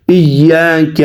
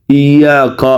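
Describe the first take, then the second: First: ایاک with a thin, light k and an open front vowel after it; correct light kaf. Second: ایاک with a thick, backed k like qaf; wrong heavy kaf. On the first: Teacher showing students the proper recitation, ایاک with a light kaf. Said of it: "لوگ اس کاف کو موٹا پڑھتے ہیں". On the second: Teacher imitating a common student error, ایاک with a heavy kaf. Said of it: "اکثر لوگ اس کاف کو موٹا پڑھتے ہیں". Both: Shown as a demonstration.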